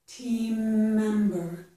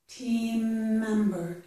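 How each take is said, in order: Both takes have the same delivery.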